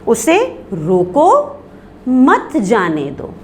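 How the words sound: There is a pause right after 'roko'. Stop the person; do not let them go. "फिर हमने सक्ते का निशान लगाया, यानी ठहरना है"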